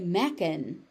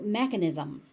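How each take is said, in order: First: The ending sounds are dropped. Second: The ending sounds are fully pronounced. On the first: The speaker calls it wrong. "if you say mechan, nobody knows what you're talking about" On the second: The speaker calls it right. "getting those ending sounds"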